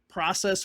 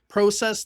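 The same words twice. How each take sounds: First: The word is said the American way. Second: The word is said the Canadian way. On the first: "we say here in the United States" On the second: "they say in Canada"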